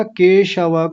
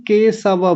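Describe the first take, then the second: First: "केशव" with a clear sh, full final a; correct palatal sh. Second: "केशव" said as ke-sa-va; mistaken dental s. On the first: Teacher naming the right word, sh in "केशव". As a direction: say "केशव" as ke-sha-va. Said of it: "को केशव बोल रहे थे". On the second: Teacher imitating students' error, s in "केशव". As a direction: swap the sh in "केशव" for a plain s. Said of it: "दंत्य सकार वाला स लगा रहे थे". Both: Shown as a demonstration.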